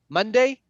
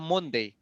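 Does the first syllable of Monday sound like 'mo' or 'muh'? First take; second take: muh; mo. First: The first vowel sounds like 'muh'. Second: The first vowel sounds like 'mo'. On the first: The speaker calls it right. "It's a Monday" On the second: The speaker calls it wrong. "It's not Monday"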